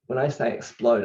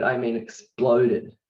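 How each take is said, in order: First: Said in the usual way. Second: Exploded drawn out slowly and pressed; stress on exploded. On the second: Real, not acted. Telling viewers how big it felt, "exploded" slow and pressed. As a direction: lean hard on "exploded".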